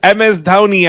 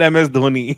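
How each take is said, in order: First: The name's first vowel sounds like 'ow'. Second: The name's first vowel sounds like 'oh'. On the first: The speaker calls it right. "So it's M S Dhoni actually" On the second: The speaker calls it wrong. "It's not M S Dhoni"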